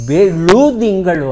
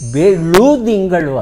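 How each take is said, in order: First: The second syllable has a 'u' vowel. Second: The same.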